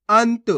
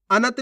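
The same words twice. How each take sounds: First: अंत as one beat, ant; half-letter pronunciation. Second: अनंत as a-nat, two syllables; full-letter misreading. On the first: Teacher answers how to read it, अंत with half न. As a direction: join न straight to त in अंत. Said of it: "कैसे पढ़ेंगे". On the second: Teacher rejects this reading, अनंत with full न. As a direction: open a vowel after न in अनंत. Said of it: "नहीं". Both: Shown as a demonstration.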